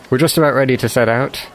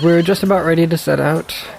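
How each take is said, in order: First: The voice is pitched noticeably lower and deeper. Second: The voice is at a higher, ordinary pitch. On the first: The speaker calls it right. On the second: The speaker calls it wrong.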